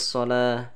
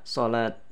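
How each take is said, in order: First: The word ends with an h sound. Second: The word ends with a t sound. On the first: The speaker calls it right. "Maka suara ta di sini berubah menjadi ha" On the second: The speaker calls it wrong. "Tidak boleh dibaca salat"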